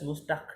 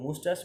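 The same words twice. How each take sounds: First: মুস্তাক ending in a hard k; মুস্তাক misread with "tak" for the last syllable; wrong pronunciation. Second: মুস্টাস with "tas", no k at the end; correct pronunciation. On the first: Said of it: "না কিন্তু". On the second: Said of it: "মুস্তাক না কিন্তু". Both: Shown as a demonstration.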